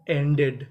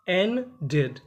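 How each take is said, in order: First: Said in the usual way. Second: एंडेड split as "en", then "ded"; broken into parts. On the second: Shown as a demonstration. Teacher breaking एंडेड down for learners, syllable by syllable. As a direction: say एंडेड as two separate syllables.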